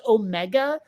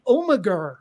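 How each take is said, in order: First: Said in the usual way. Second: Omegar with an added r sound at the end. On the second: Retold or imitated. To the co-host, lightly mimicking the TV actor saying Omegar with a final r. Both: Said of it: "I kept hearing Tom Baker saying Omegar".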